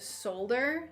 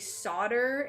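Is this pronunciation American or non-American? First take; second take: non-American; American. First: It is pronounced the non-American way. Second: It is pronounced the American way. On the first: "instead of solder" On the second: "people in the United States say solder"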